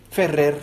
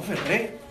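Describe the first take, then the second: First: "Ferrer" with the closing R pronounced; low-pitched "Ferrer", final R kept; final R sounded. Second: "Ferré" with stressed É and no final R; softly stressed final E in "Ferré". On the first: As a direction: end "Ferrer" on an audible R. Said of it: "con R". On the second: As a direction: say "Ferré" open-ended, accent on the last E, R dropped. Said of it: "con acento en la E y sin R". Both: Retold or imitated.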